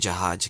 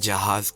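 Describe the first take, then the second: First: It is said with a local dialect pronunciation. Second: It is said with the standard pronunciation. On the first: The speaker calls it wrong. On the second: The speaker calls it right.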